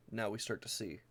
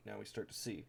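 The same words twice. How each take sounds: First: Said in the usual way. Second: Quiet emphasis. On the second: Shown as a demonstration. Pointing out the deck's synergy to viewers, quiet and knowing. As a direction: let it sink in, softly.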